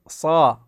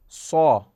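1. الصوت صوت a مفتوح وواضح. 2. الصوت مستدير نحو صوت u. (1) "نفتح الشفتين ... والصاد نقول صا" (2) "صا هذا خطأ ... صارت شمة الألف إلى ضمة"

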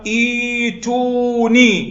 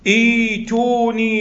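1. تبدأ الكلمة بحرف المد 'ee'. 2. تبدأ الكلمة بحرف المد 'ee'.

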